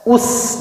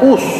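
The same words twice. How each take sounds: First: The s sound is thin and clear. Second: The s sound is heavy with protruding lips. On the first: The speaker calls it right. "Tipis. Perhatikan posisi mulutnya ketika dhammah" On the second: The speaker calls it wrong. "jangan us. Kalau us ngonyo itu shad"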